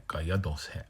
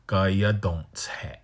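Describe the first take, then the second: First: Gaya don't say with no n; right form. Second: Gaya don't say with a nasal don't; wrong form, whispered. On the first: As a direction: Gaya don't say, don't lightly without n. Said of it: "It's just". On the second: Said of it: "nobody says". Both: Shown as a demonstration.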